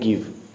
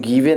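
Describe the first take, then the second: First: The word ends on the v, no vowel. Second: An extra vowel is sounded after the v. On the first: The speaker calls it right. "हम clearly सिर्फ बोलते हैं गिव" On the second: The speaker calls it wrong. "गिवे नहीं कहते हैं"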